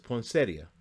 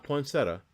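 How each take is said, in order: First: "poinsettia" as poin-SET-ee-uh; correct poinsettia. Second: "poinsettia" cut to poin-SET-uh; mispronounced poinsettia. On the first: Sportscaster correcting the bowl's name for listeners, "poinsettia" ending ee-uh. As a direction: keep the ee before the last uh in "poinsettia". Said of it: "It's poinsettia". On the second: Sportscaster showing listeners the wrong way, "poinsettia" as poin-SET-uh. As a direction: drop the ee sound from "poinsettia", ending just -uh. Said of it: "It's not poinsettia". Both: Shown as a demonstration.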